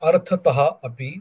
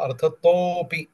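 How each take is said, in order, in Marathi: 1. हे दोन शब्द वेगळे म्हटले जातात, एकत्र न होता. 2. हे शब्द एकत्र होऊन एक होतात, आणि शेवट "topi" ने होतो. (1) "मी मुद्दाम संधी वेगळे करून वाचतोय" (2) "तोपि असं उच्चारण झालं"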